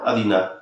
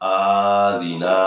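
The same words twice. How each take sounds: First: The word is said hurriedly and clipped. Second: The vowels are stretched out long. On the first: "আযিনা তাড়াহুড়ো করা যাবে না" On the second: "আযিনা টান দিই তাহলে কিন্তু হবে না"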